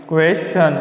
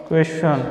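The two takes are said the same way.

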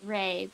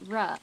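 First: The syllable has the vowel of 'ray'. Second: The syllable has the vowel of 'rah'. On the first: The speaker calls it wrong. "it is not pronounced "ray"" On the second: The speaker calls it right. "but "ra.""

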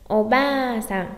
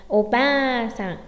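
No difference in how they are said.

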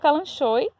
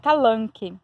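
First: The word continues with an SH sound. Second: The word continues with a hard K sound. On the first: The speaker calls it wrong. "Eu falo calanchoe" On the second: The speaker calls it right. "a pronúncia correta é calanque"

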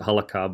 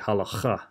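First: The middle consonant is a plain k sound. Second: The middle consonant is a harsh throaty rasp. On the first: The speaker calls it wrong. "So I would pronounce it halakha" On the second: The speaker calls it right. "it's supposed to be halacha. It's a really hard CH in there"

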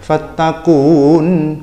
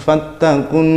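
First: The final vowel is held long before the next word. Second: The final vowel is short and merges straight in. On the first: The speaker calls it wrong. "bukan fattakun, enggak gitu" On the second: The speaker calls it right. "tapi langsung fattakun naral"

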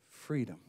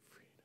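First: It is said in a normal voice. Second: It is whispered.

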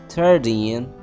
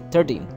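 First: The final syllable is long and stressed. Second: The final syllable is short and unstressed. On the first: The speaker calls it right. "We have to put stress. We have to say it longer" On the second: The speaker calls it wrong. "Don't say 13, 14. It sounds like 30"

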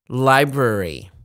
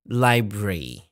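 First: It is said in the general, non-British way. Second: It is said the British English way.

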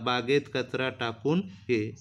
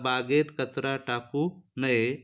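First: The word break comes after takun, before ye. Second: The word break comes after taku, before naye. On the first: Throw the litter in the garden and come over. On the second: Throwing litter in the garden is forbidden.

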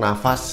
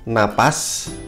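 First: The middle consonant is an f sound. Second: The middle consonant is a p sound. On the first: This is the everyday spoken form. The speaker calls it wrong. "setiap harinya kita kalau bilang nafas" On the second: This is the standard form. The speaker calls it right. "Ini yang baku"

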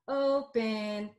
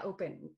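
First: The first vowel is stretched out long. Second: The first vowel is short and quick. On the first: The speaker calls it right. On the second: The speaker calls it wrong.

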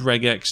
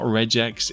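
First: The g is hard, as in regular. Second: The g is soft, like a j. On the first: The speaker calls it right. "It's called regex, It's because it's short for regular expressions" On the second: The speaker calls it wrong. "not regex"

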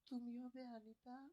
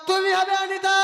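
First: The phrase is said quietly and softly. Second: The phrase is said louder, in a full voice. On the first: The speaker calls it wrong. "আস্তে আস্তে বলবে।" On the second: The speaker calls it right. "একটু জোরে জোরে বল।"

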